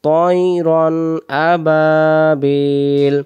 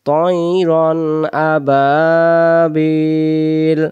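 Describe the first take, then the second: The two takes are said the same way.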